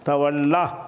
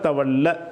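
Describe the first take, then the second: First: The final vowel is drawn out long. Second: The final vowel is cut short. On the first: The speaker calls it wrong. "நீட்டி சொல்கிறோம், நீட்டக்கூடாது" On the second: The speaker calls it right. "லாஸ்ட்டில் சுக்குன் செய்கிறதுனால"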